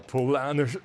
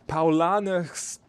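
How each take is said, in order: First: It is said with an English accent. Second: It is said with a German accent. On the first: The speaker calls it wrong. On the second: The speaker calls it right.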